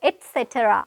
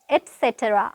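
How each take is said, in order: First: The first syllable has a T sound. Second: The same.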